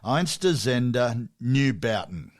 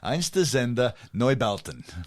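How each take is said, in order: First: It is said in an Australian accent. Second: It is said in an exaggerated German accent. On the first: The speaker calls it wrong. "I'll do it in an Australian accent" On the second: The speaker calls it right. "in my best Sergeant Schultz voice"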